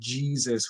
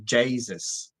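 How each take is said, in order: First: It is said with the standard vowel. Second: It is said with an Atlantic Canadian A sound. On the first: "instead of saying G like Jesus" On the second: "we say Jesus"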